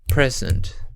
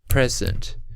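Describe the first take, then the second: First: The stress is on the first syllable. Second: The stress is on the first syllable.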